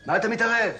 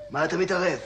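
First: Louder, higher, indignant repeat; angry rebuke. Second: Mildly irritated rebuke. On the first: Patient to a meddling stranger, angrily escalating. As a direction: raise your voice at the meddler. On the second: Patient to a meddling stranger, irritated. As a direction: push back at someone butting in. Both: Acted.

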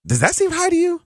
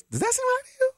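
First: Asked in a squeaky high voice; high-pitched voice. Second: Even higher squeak. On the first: Radio host asking listeners in a high-pitched voice. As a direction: raise the pitch way up on the question. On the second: Host repeating the question to listeners in a very high squeak. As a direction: pitch pushed up to a strained, very high squeak. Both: Shown as a demonstration. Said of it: "with my high-pitched voice".

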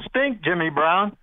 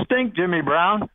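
The two takes are said the same way.

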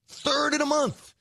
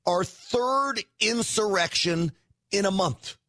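First: "Third" hit much higher, with a falling end; emphatic repeat. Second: Said in the usual way. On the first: Real, not acted. Host hammering the point home to viewers, emphatic high "Third". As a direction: punch "Third in a month" up high as a stunned echo.

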